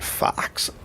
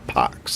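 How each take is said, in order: First: The name starts with an f sound. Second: The name starts with a p sound. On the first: "F O X" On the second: "like P O X"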